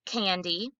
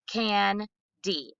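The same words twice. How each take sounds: First: Said in the usual way. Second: "Can-D" as two separate syllables, CAN, pause, DEE; broken apart. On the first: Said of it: "give the students the entire word". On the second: Shown as a demonstration. Students answering teacher by segmenting the word, broken apart. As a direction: split "Can-D" with a clear gap in the middle. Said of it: "break it apart".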